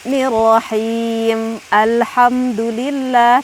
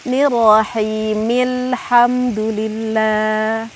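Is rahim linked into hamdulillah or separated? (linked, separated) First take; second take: separated; linked. First: Rahim and alhamdulillah are separated, with an a-sound. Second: Rahim links straight into -il hamdulillah. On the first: The speaker calls it wrong. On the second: The speaker calls it right. "Karena ini hamzahnya adalah hamzah wasl"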